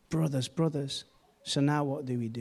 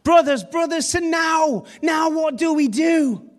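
First: The question is asked in a calm, flat tone. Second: The question is asked in a desperate, pleading tone. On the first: The speaker calls it wrong. "they didn't say it like that" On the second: The speaker calls it right. "They said it like this"

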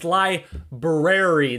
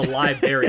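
First: The first r sound is clearly pronounced. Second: The first r sound is dropped. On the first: The speaker calls it right. "There's an R before" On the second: The speaker calls it wrong. "I hate it when she says that"

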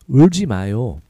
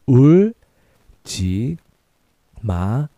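First: It is said at a faster pace. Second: It is said at a slower pace.

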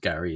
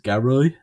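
First: The name is said in a standard accent. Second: The name is said in a Birmingham accent. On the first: "my name, which is Gary" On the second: "they pronounce my name ... as Garoy"

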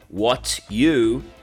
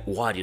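First: The two words are said separately. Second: The two words are joined together. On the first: "quando eu falo what you" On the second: "e aí eu junto e vira what you say"

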